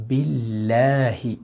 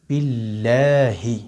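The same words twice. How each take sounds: Both takes have the same delivery.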